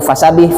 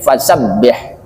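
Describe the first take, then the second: First: The b sound is short and single. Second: The b sound is pressed and held long. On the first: The speaker calls it wrong. "Jadi bukan fasabih" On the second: The speaker calls it right. "tapi fasabbih ditekan"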